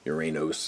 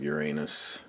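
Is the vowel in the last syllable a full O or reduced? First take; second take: full O; reduced. First: The last syllable has a full, clear O vowel. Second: The last syllable has a reduced, unclear vowel. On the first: The speaker calls it right. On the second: The speaker calls it wrong.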